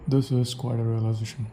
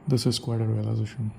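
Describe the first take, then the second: The two takes are said the same way.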